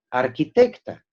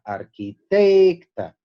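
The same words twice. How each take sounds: First: Said in the usual way. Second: Arquitecta slowed, with a long loud TEC; arqui-TEEEC-ta, higher and drawn out; stressed TEC. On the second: Shown as a demonstration. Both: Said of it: "pero no es A tónica".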